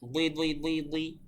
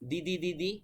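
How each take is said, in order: First: The d is thick and heavy in sound. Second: The d is plain and light, like Bengali. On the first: The speaker calls it right. "দ্বিতীয়তে যেটা বললাম এটা হচ্ছে সঠিক" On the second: The speaker calls it wrong. "দি বলা যাবে না"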